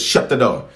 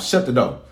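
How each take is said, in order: First: It is said in his usual accent. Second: It is said in a Southern accent.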